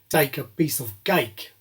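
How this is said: It is said in a South African accent.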